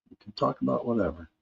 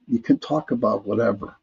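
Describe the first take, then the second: First: Much softer and faster, tossed off; soft quick echo. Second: Said in the usual way. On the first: Shown as a demonstration. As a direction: repeat it under your breath as an aside. Quiet echo of own line.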